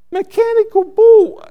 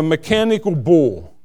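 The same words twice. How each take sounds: First: Very high, loud disbelief; incredulous squawk. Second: Said in the usual way. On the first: Acted. Interpreter aghast at pastor's mechanical bull announcement, incredulous high yelp. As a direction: squeak it out in mock shock. His startled reaction to the announcement.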